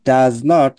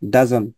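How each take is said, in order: First: It is said as two full separate words. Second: It is said as one contracted word.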